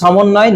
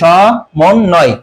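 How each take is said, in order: First: The first consonant sounds like s. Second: The first consonant sounds like sh. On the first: The speaker calls it wrong. "আমরা কখনো বলি সমন্বয় না" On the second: The speaker calls it right. "আমরা বলি স, এই জন্য তালবস্য হবে।"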